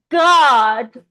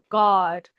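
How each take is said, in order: First: It is said in an American accent. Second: It is said with lips rounded like a circle.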